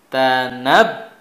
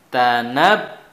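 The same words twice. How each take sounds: The two takes are said the same way.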